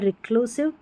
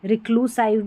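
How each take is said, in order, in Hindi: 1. अंतिम अक्षर में छोटा 'i' स्वर है। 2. अंतिम अक्षर में 'eye' स्वर है। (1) "ये है रिक्लूसिव" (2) "रिक्लूसाइव भी नहीं पढ़ते हैं"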